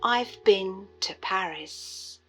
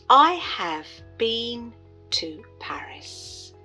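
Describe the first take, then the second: First: Contracted form with a short vowel in been. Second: Full form with a long vowel in been. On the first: "in connected speech, this becomes" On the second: "Been has a long sound, E"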